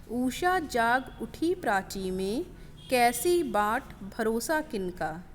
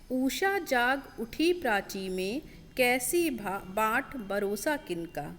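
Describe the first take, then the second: The two takes are said the same way.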